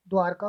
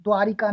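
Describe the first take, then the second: First: द्वारका without the i, "dwaar-ka"; correct pronunciation. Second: द्वारिका with an i after the r; wrong pronunciation. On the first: Teacher confirming the right form, correctly pronounced. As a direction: drop the i in द्वारका. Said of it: "होता है". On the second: Teacher rejecting the wrong form, mispronounced. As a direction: say "dwaa-ri-ka" for द्वारिका. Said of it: "नहीं होता". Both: Shown as a demonstration.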